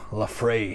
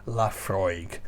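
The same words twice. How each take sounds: First: The word does not end with 'froyg'. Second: The word ends with a 'froyg' sound. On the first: The speaker calls it wrong. "I once had an American guy who was telling me how to pronounce Laphroaig" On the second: The speaker calls it right. "look at the bottle, it tells you. L A F R O Y G"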